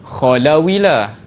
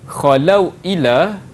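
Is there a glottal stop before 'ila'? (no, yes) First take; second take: no; yes. First: The two words run together without a glottal stop. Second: A glottal stop separates the two words.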